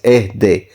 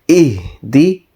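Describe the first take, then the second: First: The vowels sound like an open 'e'. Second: The vowels sound like a close 'i'. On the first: This is an older way of reading it. The speaker calls it wrong. "ehde is the old type or not quite the correct one" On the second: This is the refined way of reading it. The speaker calls it right. "the fine tuning requires this to be read as ihdi"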